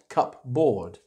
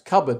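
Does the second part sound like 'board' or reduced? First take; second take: board; reduced. First: The second syllable sounds like full 'board'. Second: The second syllable is weak and reduced. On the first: The speaker calls it wrong. "not cupboard" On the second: The speaker calls it right. "which we pronounce cupboard"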